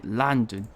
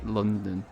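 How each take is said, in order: First: "London" as a film Cockney would say it. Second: Said in the usual way. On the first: Shown as a demonstration. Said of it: "it's like". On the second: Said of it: "the stereotypical, uh, London accent".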